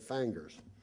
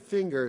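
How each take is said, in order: First: The word is said in a Southern accent. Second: The word is said in a standard accent. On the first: This is the older way the speaker used to say it. "I used to say fangers, but I don't say that anymore" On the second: This is the modified way the speaker says it now. "finger seems to me awfully tight"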